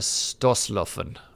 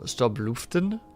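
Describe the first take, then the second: First: The middle consonant is pronounced as an S. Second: The middle consonant is pronounced as a B. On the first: The speaker calls it right. "B is an S" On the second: The speaker calls it wrong. "that B you don't say as a B"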